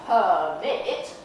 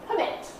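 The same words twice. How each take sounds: First: The first vowel is long and drawn out. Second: The first vowel is short and reduced. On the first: The speaker calls it wrong. "We don't need permit" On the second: The speaker calls it right. "but permit. We get the first one over and done with"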